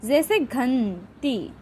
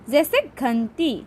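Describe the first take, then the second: First: घंटी very slow, the nasal n held long; nasal anusvara. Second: Said in the usual way. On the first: Shown as a demonstration. Teacher showing a sound made through the nose, घंटी drawn out nasally. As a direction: linger on the nasal sound in घंटी before the last syllable. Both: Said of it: "नाक से होता है".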